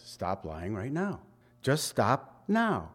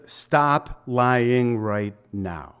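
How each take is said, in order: First: Soft, low, earnest order; a hushed, insistent command; quiet firm command. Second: Drawn out, each word weighted; a very slow, stern command; slow firm command. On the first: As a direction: lower the voice and press it home. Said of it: "That's what he says". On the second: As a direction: say it slowly like a firm order. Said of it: "So he just says". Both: Acted.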